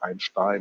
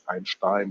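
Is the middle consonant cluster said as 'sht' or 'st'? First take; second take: sht; sht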